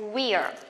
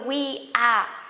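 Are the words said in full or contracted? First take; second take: contracted; full. First: The two words are merged into one syllable. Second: The two words are said in full.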